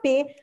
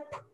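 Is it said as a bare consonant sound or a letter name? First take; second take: letter name; bare consonant. First: Said as the letter name with a vowel. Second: Said as a bare consonant with no vowel. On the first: This is what the letter is called. "a letra chama P" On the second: This is the sound the letter makes. "mas o som dela é P"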